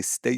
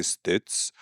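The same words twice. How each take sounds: First: "state" said as the model, with a clear long A; mock pronunciation lesson. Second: "states" with a short muddied vowel, like "stuts"; mock mispronunciation. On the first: Showing a foreigner how to say it, mock correction. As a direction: sound out "state" like a pedantic correction. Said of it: "You say". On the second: Showing a foreigner the mistake, mock mispronunciation. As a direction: botch the vowel in "states" as the wrong example. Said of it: "you don't say".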